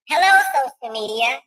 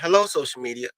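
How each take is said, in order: First: It is said in a put-on woman's voice. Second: It is said in his normal voice.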